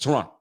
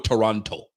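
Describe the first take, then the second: First: Only the first T is pronounced. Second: Both T sounds are clearly pronounced. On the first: The speaker calls it right. "You only pronounce the first T in Toronto" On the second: The speaker calls it wrong. "You don't go Toronto"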